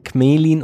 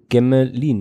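First: The G runs straight into the m. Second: A vowel is heard between the G and m. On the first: The speaker calls it right. "hast du recht" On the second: The speaker calls it wrong. "mal wieder falsch ausgesprochen"

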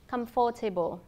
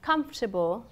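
First: Every syllable is fully pronounced, including the middle vowel. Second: A middle vowel is dropped, giving fewer syllables. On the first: "thay cho" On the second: "các bạn cần phải nuốt âm"

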